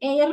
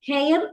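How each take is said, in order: First: The word starts with a vowel sound. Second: The word starts with an h sound. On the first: The speaker calls it right. "അത് എയർ എന്നാണ് വായിക്കുക. എച്ച് അവിടെ silent ആണ്" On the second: The speaker calls it wrong. "ഹെയർ എന്നല്ല വായിക്കേണ്ടത്"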